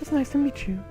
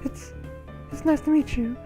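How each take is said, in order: First: It flows smoothly and sounds confident. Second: It stutters nervously on the first word. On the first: A self-assured character is speaking. "I try to be more confident" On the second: A shy character is speaking. "she stutters, so I'm like"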